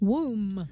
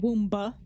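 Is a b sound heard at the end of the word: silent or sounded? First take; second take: silent; sounded. First: The word ends with no b sound. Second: A b sound is pronounced at the end. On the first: The speaker calls it right. "Silent B" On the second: The speaker calls it wrong. "It's not womba"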